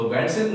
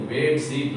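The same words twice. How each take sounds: First: बैड सीट with an open a sound as in bad; wrong vowel demo. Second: बेड sheet with a short e sound as in bed; correct vowel. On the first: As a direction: say बैड सीट as the common mistake. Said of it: "बैड माने तो खराब होता है". (गलत उच्चारण बैड सीट) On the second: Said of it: "बैड सीट नहीं". (सही उच्चारण बेड sheet) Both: Shown as a demonstration.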